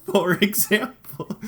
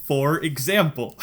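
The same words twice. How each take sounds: First: For example drawn out through a laugh, higher; laughing, higher and slow. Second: Said in the usual way. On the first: Shown as a demonstration. Retelling the Zell card story, laughing slowly. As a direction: restart the phrase giggling and slow.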